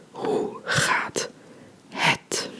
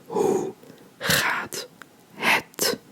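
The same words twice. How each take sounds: The two takes are said the same way.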